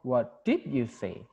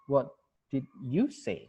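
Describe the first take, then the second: First: Slow question with DID leaned on hard; stress on DID. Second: Slow question with YOU standing out; slow down and lean on "you"; stress on YOU. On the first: Challenging someone who misquoted the speaker, stress on DID. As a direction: draw it out and hit "did". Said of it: "Penekanannya juga beda". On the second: Teacher repeats the question about the listener's own answer, stress on YOU. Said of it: "itu kan beda-beda". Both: Shown as a demonstration.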